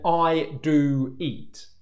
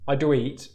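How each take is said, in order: First: The oo vowel is fully finished before the next word. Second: The oo vowel is cut short into the next word. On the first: The speaker calls it right. "I'm saying I do eat" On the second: The speaker calls it wrong. "where my lips are already moving to the next sound whilst I'm still making this one"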